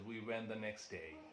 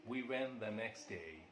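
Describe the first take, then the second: No difference in how they are said.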